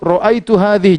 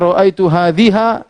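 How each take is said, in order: First: The last word ends in an i vowel. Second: The last word ends in an a vowel. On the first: The speaker calls it right. "selalu kasrah" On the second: The speaker calls it wrong. "jangan baca"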